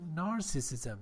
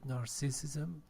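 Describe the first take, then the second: First: The stress is on the first syllable. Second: The stress is on a later syllable. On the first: The speaker calls it right. "The first syllable is stress" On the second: The speaker calls it wrong. "You said"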